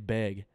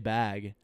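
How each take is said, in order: First: The word has a Washington regional vowel. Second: The word has a non-Washington vowel. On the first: This is how people from Washington say it. "I think it's a Washington thing to say beg" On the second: This is how the speaker says it. "but I say bag"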